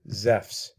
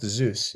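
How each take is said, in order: First: It ends with an f sound before s. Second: It ends in a vowel then s, no f. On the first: The speaker calls it right. "like that with an F" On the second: The speaker calls it wrong. "It's not Zeus"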